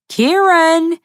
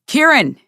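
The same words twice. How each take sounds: First: Higher, loud, long stretched call of Kieran; drawn-out yowl. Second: High, loud call of the name; yowling call. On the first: Mick keeps howling for Kieran inside, drawn-out high yowl. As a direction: let the name howl out long and high. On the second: Mick calls Kieran from inside the house, a high loud yowl. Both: A narrator's reading. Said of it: "in drawn-out yowling sounds".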